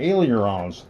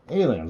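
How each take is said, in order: First: It is said with an extra r syllable. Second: It is said like the word aliens. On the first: "when I try to say it correctly" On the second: "I call them Aliens"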